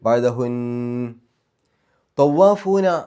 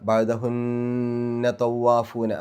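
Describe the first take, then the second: First: The voice stops after the first word. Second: The two words run together without a stop. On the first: The reading stops at that point. "നിർത്തുകയാണെങ്കിൽ" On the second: The reading continues without stopping. "നിർത്താതെ ഓതുകയാണെങ്കിൽ"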